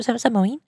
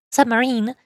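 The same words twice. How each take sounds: First: Stammered, rising submarine?; puzzled question. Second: Said in the usual way. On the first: Real, not acted. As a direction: ask submarine? in disbelief, rising. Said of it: "repeats it plainly". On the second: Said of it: "asked as a question first".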